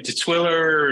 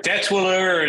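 First: Detwiller as duh-TWILL-er, first vowel reduced; second-syllable stress. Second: Detwiller with DET stressed, clear short "e"; first-syllable stress. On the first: Guest giving another heard version of his surname, Detwiller stressed on TWILL. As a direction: put the weight on TWILL in Detwiller. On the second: Guest giving a heard version of his surname, Detwiller stressed on DET. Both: Shown as a demonstration. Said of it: "how do you pronounce your surname".

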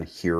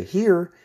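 First: Said in the usual way. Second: A bright, much higher and louder "Here" that falls; inviting recall call. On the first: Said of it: "recall command". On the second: Shown as a demonstration. Trainer bent over calling the dog, a big inviting "Here". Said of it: "use good voice inflection".

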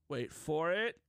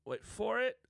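First: Said in the usual way. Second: "wait for it" pitched much higher, teasing; rising suspense. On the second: Shown as a demonstration. Host building suspense for the viewers, higher teasing voice. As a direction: tease the reveal with a high lifted voice.

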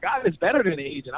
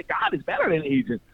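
First: Said in the usual way. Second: "better" stressed, raised higher; emphatic. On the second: Real, not acted. Telling people God beats any agent, emphatic. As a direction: proclaim better with conviction. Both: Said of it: "I was telling people".

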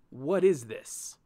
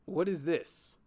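First: "what is this?" slow, louder, each word pressed; slow pointed repeat. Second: Said in the usual way. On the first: A narrator's reading. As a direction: spell out "what is this?" slowly and firmly. Again, I ask you.

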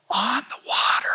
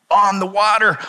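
First: Hushed breathy whisper of the phrase, higher; awed whisper, the words on the water breathed out. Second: Said in the usual way. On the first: Acted.

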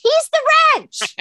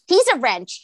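First: "the" hit high and loud; "He's THE wrench", the jumped up high and punched; stress on the. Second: Said in the usual way. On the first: Acted. Co-worker nails the punchline about the boss, stressing "the".

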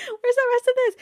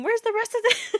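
First: Much higher and louder; high disbelieving yell; louder incredulous. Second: Much higher and louder; high disbelieving squeal; incredulous. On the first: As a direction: shout it in mock outrage. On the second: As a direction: demand where the lines went. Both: Real, not acted. Reacting to missing prophecy.

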